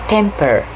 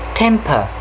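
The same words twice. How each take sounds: First: The final r sound is clearly pronounced. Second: The final r sound is dropped. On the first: "In American pronunciation, you will hear them pronounce it as temper" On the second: "if we compare this with British English, we will hear them pronounce the word temper as temper"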